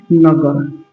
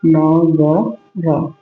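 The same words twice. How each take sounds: First: Said in the usual way. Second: नगर stretched out slowly, syllable by syllable; slowly sounded out. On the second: Shown as a demonstration. Teacher to students learning spelling, sounding out नगर slowly. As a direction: draw out नगर so students hear each sound. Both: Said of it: "देख पा रहे हैं".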